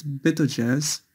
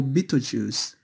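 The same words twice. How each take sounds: First: Betelgeuse ending in a short "uhz"; first pronunciation. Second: Betelgeuse ending in a long "ooz"; alternative pronunciation. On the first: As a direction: say Betelgeuse as "BEH-toh-juhz". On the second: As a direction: say Betelgeuse as "BEE-toh-zhooz". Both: Shown as a demonstration. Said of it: "or Betelgeuse".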